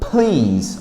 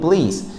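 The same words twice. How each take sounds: First: The P is said with a puff of air. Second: The P is said without a puff of air. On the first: The speaker calls it right. "Olha o ar saindo" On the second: The speaker calls it wrong. "falar simplesmente o please, que é muito comum"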